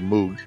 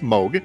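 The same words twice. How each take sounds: First: The name is said in the commonly tempted way. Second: The name is said in the intended way. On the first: The speaker calls it wrong. "I'm always tempted to say Moog" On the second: The speaker calls it right. "but it's Moog"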